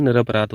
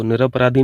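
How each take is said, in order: First: निरपराध said ending clipped on dh, no ee; teacher says the right निरपराध without the vowel; correct form shown. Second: निरपराधी said with a long final ee; teacher says the rejected निरपराधी with its long ending; wrong form shown. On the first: Teacher tells students the correct form, निरपराध ending on dh. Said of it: "निरपराधी नहीं होता है". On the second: Teacher shows students the incorrect निरपराधी with a long ee. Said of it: "जैसे निरपराधी पढ़ते हो ना". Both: Shown as a demonstration.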